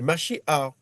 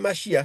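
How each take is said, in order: First: The word ends with a throaty 'ach' sound. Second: The word ends on an open vowel sound. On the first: The speaker calls it right. "c'est Mashiach" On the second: The speaker calls it wrong. "mais c'est pas Machia"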